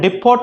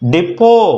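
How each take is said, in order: First: It ends with a t sound. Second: It ends without a t sound. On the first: The speaker calls it wrong. "డిపోట్ అనకూడదు" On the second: The speaker calls it right. "డిపో టీ silent అండి"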